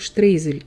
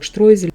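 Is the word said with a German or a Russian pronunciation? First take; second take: Russian; German. First: It is said with the Russian pronunciation. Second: It is said with the German pronunciation. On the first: "произносим штрейзель именно в русской транскрипции" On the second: "В немецкой транскрипции это слово произносится как штройзель"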